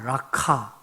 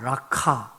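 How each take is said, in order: First: The middle consonant is harsh, forced from the throat. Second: The middle consonant is harsh, forced from the throat.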